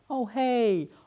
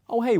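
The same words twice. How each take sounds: First: The greeting sounds warm, chatty and drawn out. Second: The greeting sounds brisk, direct and businesslike. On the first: The caller wants a friendly conversation. "my tone was very" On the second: The caller wants to get to the point. "getting to the point"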